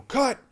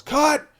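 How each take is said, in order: First: Sharp, high, louder shout of cut; director's yell. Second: A high, loud shout of cut; director's yell. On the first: Director stopping the take, loud high shout. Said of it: "You know". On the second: The director calling cut across the set, loud high yell. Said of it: "the boss yells". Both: Retold or imitated.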